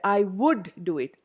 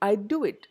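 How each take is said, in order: First: The word 'would' is said in full. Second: The word 'would' is reduced to a 'd'.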